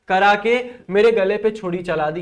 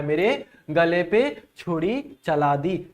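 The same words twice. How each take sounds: First: Said in the usual way. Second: Slow, deliberate re-reading of the line; slow explaining. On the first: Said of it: "है ना". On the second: Shown as a demonstration. Teacher repeats the example for students, slowly and deliberately. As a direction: spell out each word slowly for the class. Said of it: "ये कहना चाहता है".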